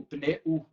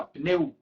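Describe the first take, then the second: First: Pneu as pne-U, U a separate beat; split final vowel. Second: Pneu in one beat, U gliding off the e; joined semivowel. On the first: Teacher shows what we don't say, pneu split as pne-U. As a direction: give the U in pneu its own syllable. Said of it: "a gente não faz". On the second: Teacher shows what we do say, pneu as one gliding syllable. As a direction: let the U of pneu just fall away. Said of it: "A gente faz, tipo assim". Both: Shown as a demonstration.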